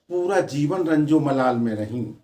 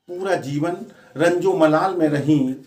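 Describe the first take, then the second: No difference in how they are said.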